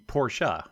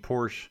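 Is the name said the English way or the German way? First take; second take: German; English. First: The name is said the German way. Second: The name is said the common English way. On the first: The speaker calls it right. "it should be Porsche" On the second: The speaker calls it wrong. "I've been saying Porsche my whole life until recently"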